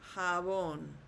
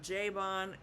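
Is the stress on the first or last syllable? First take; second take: last; first. First: The stress is on the last syllable. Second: The stress is on the first syllable. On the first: The speaker calls it right. "since we have an accent mark over the O" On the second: The speaker calls it wrong. "it's not jabón"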